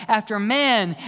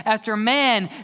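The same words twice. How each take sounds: The two takes are said the same way.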